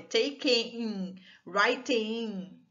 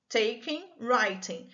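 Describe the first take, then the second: First: "Taking, writing" with the E kept, dragged out as "take-ee-ing, write-ee-ing"; awkward extra vowel. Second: Said in the usual way. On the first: Shown as a demonstration. Teacher showing what happens without dropping the E, awkwardly drawn-out "Taking, writing". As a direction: stretch the endings of "Taking" and "writing" into a clumsy extra syllable. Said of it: "fica até difícil de pronunciar se você não tirar o E". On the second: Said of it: "Então".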